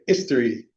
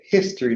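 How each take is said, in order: First: The word begins with no H sound. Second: The word begins with a breathy H sound. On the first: "they say history" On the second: "English people don't say history"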